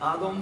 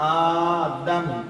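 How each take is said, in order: First: The first vowel is short, not drawn out. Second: The first vowel is long and drawn out. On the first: The speaker calls it wrong. "আদম বলবেন না যেন" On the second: The speaker calls it right. "এক আলিফ টান আছে, আলেমদেরকে শুনে দেখবেন"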